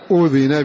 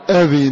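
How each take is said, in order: First: The first vowel is a rounded 'u' sound. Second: The first vowel is an open 'a' sound. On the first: Permission was given. "بضم الهمزة" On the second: He gave permission. "بفتحها"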